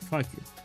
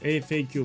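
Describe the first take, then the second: First: It is said as one word. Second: It is spelled out letter by letter. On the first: The speaker calls it wrong. "In my country, we, we call it fuck you" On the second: The speaker calls it right. "that's how you need to pronounce it"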